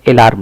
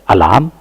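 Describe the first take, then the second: First: "अलार्म" said wrongly as ay-larm; full ay opening on "अलार्म"; initial "ay". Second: "अलार्म" said uh-larm; initial short "uh". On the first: Teacher showing what not to say, ay-larm pronunciation. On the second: Teacher modelling the word, uh-larm pronunciation. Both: Shown as a demonstration. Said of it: "अलार्म नहीं बोलेंगे".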